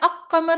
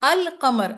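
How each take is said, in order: First: The L is dropped and the q is doubled. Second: The L sound is clearly pronounced before qamar. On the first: The speaker calls it wrong. "अक कमर नहीं पढ़ेंगे" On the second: The speaker calls it right. "अल के लाम की अदायगी की जाती है"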